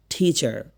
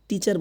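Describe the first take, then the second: First: টিচার with a breathy, aspirated first T. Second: টিচার with a hard T, no puff of air; everyday Bengali টিচার, T without aspiration; unaspirated T. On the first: Teacher models টিচার for learners, aspirated T. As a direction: puff air on the T of টিচার. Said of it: "উচ্চারণ কি বললাম?". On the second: Teacher shows learners what not to say, unaspirated T. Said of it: "টিচার বলি না কিন্তু". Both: Shown as a demonstration.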